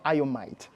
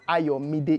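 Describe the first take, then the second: First: The last syllable starts with a t sound. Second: The last syllable starts with a d sound. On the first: The speaker calls it wrong. "it's not Ayomite" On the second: The speaker calls it right. "it's Ayomide"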